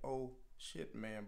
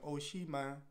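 First: The middle word ends with a clear t sound. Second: The middle word ends without any t sound. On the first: "He was saying" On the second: "But he was saying"

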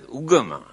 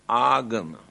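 First: The first vowel is a 'uh' sound. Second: The first vowel is an open 'ah' sound. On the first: This is how it is pronounced nowadays. "Here now they pronounce as ugama" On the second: This is the original form of the word. "but the original word is agama"

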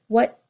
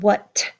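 First: The word ends with a held, unreleased T. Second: The word ends with a strongly released T. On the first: The speaker calls it right. "you hear what, and held in at the end" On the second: The speaker calls it wrong. "you don't hear a strong what"

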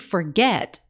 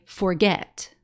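First: The stress is on the second syllable. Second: The stress is on the first syllable. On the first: The speaker calls it right. "forget is the one that sounds right. So yes, that final syllable is accented" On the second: The speaker calls it wrong. "Do we say forget or do we say forget?"

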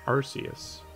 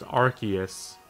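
First: The C is said as a soft S sound. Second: The C is said as a hard K sound. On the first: The speaker calls it right. "I'm just gonna keep pronouncing it Arceus" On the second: The speaker calls it wrong. "apparently it's pronounced Arceus"

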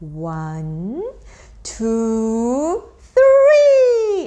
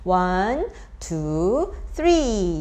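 First: The counting grows louder and rises toward three. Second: The counting stays at one even level throughout. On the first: The child can tell a jump is coming. The speaker calls it right. "좀 크레센도 되듯이 ... 기승전 이렇게 올라가는 그런 느낌으로" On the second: The child does not sense what is coming. The speaker calls it wrong. "그냥"

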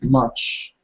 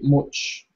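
First: The vowel is an open 'uh' sound. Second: The vowel is a rounded 'oo' sound. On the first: The speaker calls it right. "you need to pronounce it much, as in A" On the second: The speaker calls it wrong. "some students say much because of the U"

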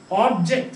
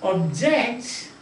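First: The stress is on the first syllable. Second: The stress is on the second syllable. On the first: It is a noun meaning a thing. "Object is noun" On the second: It is a verb meaning to oppose. "So when you say object, that is verb"

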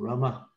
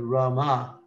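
First: The final vowel is pulled in short. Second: The final vowel is pushed out long. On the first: The speaker calls it right. "You're pulling in the sound" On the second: The speaker calls it wrong. "Instead of Rama"

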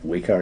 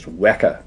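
First: The word does not rhyme with Mecca. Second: The word rhymes with Mecca. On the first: The speaker calls it wrong. "It's not Weka" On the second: The speaker calls it right. "it's Weka, pronounced to rhyme with Mecca"

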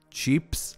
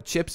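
First: The vowel is long, like cheeps. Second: The vowel is short, as in English chips. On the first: "they pronounce it more like cheeps" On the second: "chips in Hebrew"

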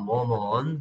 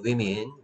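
First: It sounds like 'woman', with an 'o' vowel first. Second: It sounds like 'wimmin', with an 'i' vowel first. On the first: The speaker calls it wrong. "워먼이 아니야" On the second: The speaker calls it right. "얘는 위민이라고 읽어야 돼"

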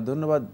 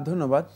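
No difference in how they are said.

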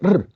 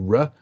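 First: The R is a Scottish-style r sound. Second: The R is an English-style r sound. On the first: "Go to Scotland ... So they go R" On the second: "So I say R"

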